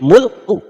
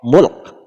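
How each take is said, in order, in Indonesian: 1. Kata ini berakhir dengan vokal pendek. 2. Kata ini berakhir mendadak pada konsonan. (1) "Kalau kita baca apa adanya" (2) "Kalau kita mau waqaf"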